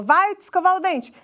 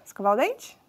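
First: Higher-pitched parental command; giving an order. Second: Thinking it over. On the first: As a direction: order the child to go, falling at the end. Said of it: "quando a gente só dá ordens". (dando uma ordem) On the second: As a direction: lower questioning murmur to oneself, rising end. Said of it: "o cérebro vai pensar". (pensando, em tom de pergunta) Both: Acted.

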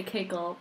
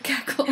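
First: "cackle" said as KAY-kul; "cackle" with long A. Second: "cackle" said as KAK-ul; "cackle" with short A. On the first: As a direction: say "cackle" with the vowel of "cake". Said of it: "I wanted to say cackle". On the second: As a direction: say "cackle" with the vowel of "cat". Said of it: "I got on board with cackle". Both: Shown as a demonstration.

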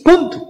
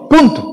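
First: "Punto" said higher, short and falling; emphatic. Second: A firm final full stop on "Punto", said high and clipped off; emphatic. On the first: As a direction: drop "Punto" as the final word. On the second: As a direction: end the point with a sharp "Punto". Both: Shown as a demonstration.

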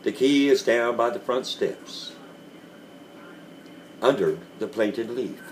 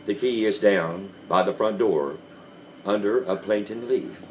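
First: Lightly gentle, patient instruction; understated tender telling. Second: A touch of gentle, patient repeating; mild soothing insistence; gently and slowly. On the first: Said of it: "said I in the gentlest of voice". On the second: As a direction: calmly coax him again. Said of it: "very gently and slowly". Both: A narrator's reading.

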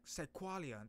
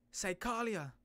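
First: Psychalia as /saɪkwɑliə/; corrected name. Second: Psychalia as /saɪkɑliə/; wrong name. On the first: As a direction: Psychalia with a kw sound in the middle. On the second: Mispronouncing the power's name, a loud first try. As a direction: Psychalia said with a plain k sound, no w. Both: Shown as a demonstration. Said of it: "I mean, not Psych-, Psychalia".

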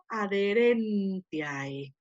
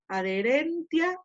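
First: Adherentiae very slow, the final ae glided as one sound, ai; diphthong ae. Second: Adherentia read evenly, ending in a; Latin pronunciation. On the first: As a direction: drag out adherentiae and close on the ai diphthong. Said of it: "ahí pronuncio". (adherentiae muy despacio, ae final como diptongo ai) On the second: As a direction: adherentia with a plain final a. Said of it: "ahí pronuncio adherentia". (adherentia con a final sencilla) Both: Shown as a demonstration.

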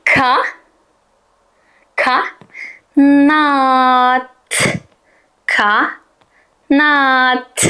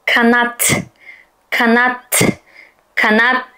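First: Ka, nat split apart; sounding out syllables. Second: Kanat as one smooth word; blended in one go. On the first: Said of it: "benimle beraber oku". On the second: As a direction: Kanat read at once. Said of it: "Tek seferde". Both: Shown as a demonstration.

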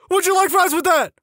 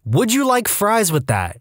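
First: Very high mock shout; recruit's shout. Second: Raised-pitch, slow mock shout; mild shout. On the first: Screw-up shouting during push-ups, high mock shout. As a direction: call it out high like a humiliated trainee. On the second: A narrator's reading. Screw-up recruit told to shout, mild call. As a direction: call it out slowly, no real volume. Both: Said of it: "is told to shout".

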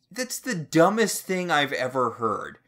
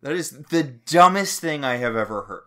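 First: Exasperated. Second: Louder outraged repeat. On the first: Exasperated rant about book. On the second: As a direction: spell it out in disbelief. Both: Real, not acted.

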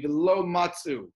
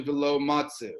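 First: "velo matzu" with matzu in two syllables, no vowel after the tz; resting shiva. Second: "velo matzu" with a short vowel after the tz, matze-u; moving shiva. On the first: Teacher giving the argued reading in the debate, resting shiva. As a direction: run the tz straight into the "u" of "matzu". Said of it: "should be a shiva nach". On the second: Teacher giving the opposing reading in the debate, moving shiva. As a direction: separate the tz from the final "u" in "matzu". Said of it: "as opposed to". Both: Shown as a demonstration.

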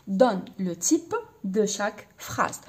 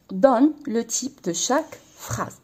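First: Slow dictation. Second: Said in the usual way. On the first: Shown as a demonstration. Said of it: "أعطيني النوع تاع كل جملة".

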